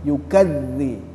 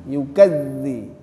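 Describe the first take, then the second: No difference in how they are said.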